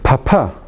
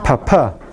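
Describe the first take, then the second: First: The p is said with a puff of air. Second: The p is said with a puff of air.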